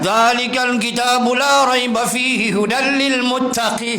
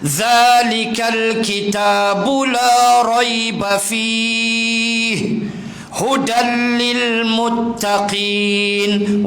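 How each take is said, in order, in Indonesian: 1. Bacaannya berjalan terus tanpa berhenti. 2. Ada berhenti tepat setelah fihi. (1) "Tak adalah salah, tapi hang langgak" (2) "Wajah yang kedua"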